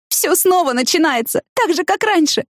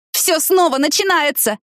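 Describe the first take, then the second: First: Weeping. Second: «Всё снова начинается!» cried high and slow, stressing «снова»; a slow, high, desperate cry. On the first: Tina clinging to Danny's sweater, weeping. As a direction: plead through tears. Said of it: "заплакала и продолжила". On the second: Tina crying out to Danny in despair. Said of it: "закричала она". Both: A narrator's reading.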